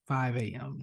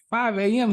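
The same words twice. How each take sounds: First: Said in the usual way. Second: Higher, louder disbelieving question; can't believe it's that early; boy repeating the time in shock; incredulous echo. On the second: Retold or imitated.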